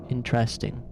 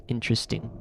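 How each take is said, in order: First: "Interesting" with a clear EH in the middle; EH-vowel pronunciation. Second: "Interesting" with a reduced UH in the middle; schwa pronunciation. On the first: Comparing two ways, "Interesting" with EH, IN-tress-ting. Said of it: "it sounds more like an E". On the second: Comparing two ways, "Interesting" with schwa, IN-truh-sting. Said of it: "like, with a interesting". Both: Shown as a demonstration.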